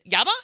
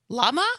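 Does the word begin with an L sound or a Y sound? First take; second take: Y sound; L sound. First: The word begins with a Y sound. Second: The word begins with an L sound.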